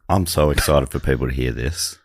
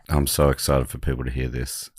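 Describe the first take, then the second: First: It is said with moderate, in-between excitement. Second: It is said with little excitement or energy.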